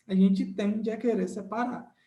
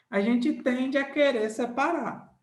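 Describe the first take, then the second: First: Said in the usual way. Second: Querer lifted and stressed, falling end; teacher stresses querer. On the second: Shown as a demonstration. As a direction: lean on "querer" with a falling close.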